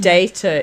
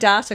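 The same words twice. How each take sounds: First: It is said with a non-New Zealand pronunciation. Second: It is said with a New Zealand pronunciation. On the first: This is how people back home say it. "data is where we come from" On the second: This is how people locally say it. "I'm saying data because that's how Kiwi say it"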